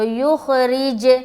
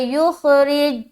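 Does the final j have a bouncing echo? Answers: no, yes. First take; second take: yes; no. First: The final j ends with a bouncing echo. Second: The final j ends flat without any echo. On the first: The speaker calls it right. "ये जो लौटती हुई आवाज मालूम हो रही है ना, ... यही हो रहा है कलकला" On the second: The speaker calls it wrong. "गलत हो जाएगा, कलकला नहीं हुआ"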